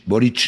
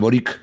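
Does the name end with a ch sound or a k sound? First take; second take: ch; k. First: The name ends with a ch sound. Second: The name ends with a k sound. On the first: The speaker calls it right. "se pronuncia ch" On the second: The speaker calls it wrong. "no Boric"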